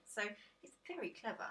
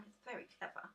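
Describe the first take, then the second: First: Said in the usual way. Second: Soft breathy echo. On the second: Shown as a demonstration. Viewer hears her repeat the praise as a hushed unvoiced echo. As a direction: repeat "It's very clever." as a soft unvoiced aside.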